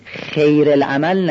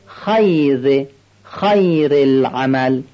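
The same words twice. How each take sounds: First: خیر with a kasra, like khir; wrong vowel. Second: خیر said slowly with a clear fatha and ي, khayr; correct khayr. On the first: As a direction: say خیر as khir, not khayr. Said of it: "خیر العمل نشه". (خیر با کسره، نادرست) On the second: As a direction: stretch out خیر as khay-r. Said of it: "هم فتحهٔ خ رو بیان کنیم". (خیر با فتحه و یاء کامل) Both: Shown as a demonstration.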